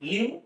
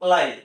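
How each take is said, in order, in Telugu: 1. ఆ అచ్చు short i, 'give' లో లాగా. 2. ఆ అచ్చు long i, 'five' లో లాగా. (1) "ఒకటేమో లివ్ అని" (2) "ఇంకోటేమో లైవ్ అని"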